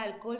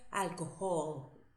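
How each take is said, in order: First: The h is silent, as in Spanish. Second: The h is sounded like a breathy j. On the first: The speaker calls it wrong. "una palabra que todos dijeron mal" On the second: The speaker calls it right. "se dice alcohol"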